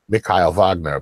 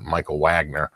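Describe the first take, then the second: First: The name is said in the German way. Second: The name is said in the American way. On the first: This is how the owner of the name says it. "he pronounces it" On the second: This is how others usually say it. "we we all call it"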